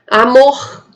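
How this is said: The final R is said as in Rio. "no Rio de Janeiro"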